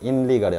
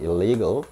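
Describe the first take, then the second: First: The word begins with an 'in' sound. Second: The word begins with an 'il' sound. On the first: The speaker calls it wrong. "illegal이 아니고" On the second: The speaker calls it right. "아니고 illegal"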